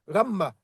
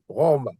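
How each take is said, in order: First: The first vowel is an a sound. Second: The first vowel is an o sound. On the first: The speaker calls it wrong. "tu ne vas pas dire Rama" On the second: The speaker calls it right. "il faut que ça se prononce O"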